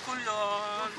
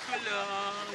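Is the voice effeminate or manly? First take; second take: effeminate; effeminate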